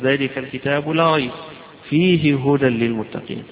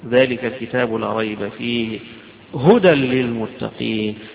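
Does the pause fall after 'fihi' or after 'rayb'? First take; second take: after rayb; after fihi. First: The pause comes right after the word rayb. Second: The pause comes right after the word fihi. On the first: The book contains guidance among other things. The speaker calls it wrong. "ويجوز تقف ذلك الكتاب لا ريب" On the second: The whole book is guidance. The speaker calls it right. "وأجمل منه أنك توصل ذلك الكتاب لا ريب فيه"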